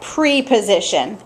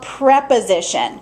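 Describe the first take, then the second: First: The first syllable is said with a long 'ee'. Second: The first syllable is said short, like 'prep'. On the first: The speaker calls it wrong. "this does not get pronounced like preposition" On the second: The speaker calls it right. "It is called preposition"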